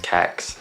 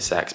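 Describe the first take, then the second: First: The name starts with a K sound. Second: The name starts with an S sound. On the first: "C E X, Kex" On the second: "I think you're supposed to pronounce it sex"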